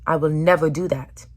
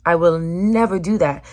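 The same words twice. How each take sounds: First: Said in the usual way. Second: Never hit harder and louder; a firmer, louder vow; stress on never. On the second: Real, not acted. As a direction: punch the word never.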